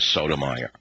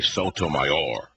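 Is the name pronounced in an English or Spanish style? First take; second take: English; Spanish. First: The name is pronounced in an English style. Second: The name is pronounced in a Spanish style. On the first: An ordinary local person would say it this way. "instead of" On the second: The speaker shows off cultural sensitivity. "show you I'm politically astute"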